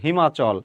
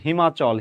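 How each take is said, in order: The two takes are said the same way.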